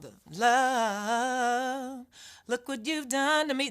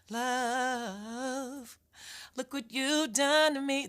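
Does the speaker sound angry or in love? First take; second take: angry; in love. First: It sounds angry and resentful toward love. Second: It sounds tender, like someone in love.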